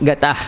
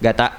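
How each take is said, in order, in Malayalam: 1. ഈ വാക്ക് കേൾക്കാവുന്ന ഹ-പോലുള്ള ശ്വാസത്തോടെയാണ് അവസാനിക്കുന്നത്. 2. ഈ വാക്ക് ഒരു ശ്വാസവുമില്ലാതെ വെറുതെ അവസാനിക്കുന്നു. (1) "വിട്ടു ഗത" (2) "വിടാണ്ട ഉച്ചരിക്കുമ്പോഴോ"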